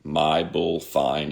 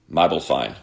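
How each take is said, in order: First: "my bull fine" slowly, each word distinct; slow, separated words. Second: "my bull fine" quickly run together like Aussie "mobile phone"; said really fast. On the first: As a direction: draw out "my bull fine" as three plain words. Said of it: "say these three words". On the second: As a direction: blend "my bull fine" into one quick phrase. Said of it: "Say it really fast". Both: Retold or imitated.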